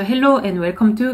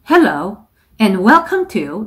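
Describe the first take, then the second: First: It is read flatly, without feeling. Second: It is read with lively feeling.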